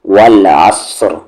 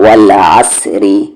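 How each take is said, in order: First: The r is heavy, the word stops on it. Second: The r is light, with a vowel after it. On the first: The reader stops on the word. "Heavy" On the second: The reader keeps going without stopping. "Light"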